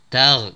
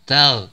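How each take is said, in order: The two takes are said the same way.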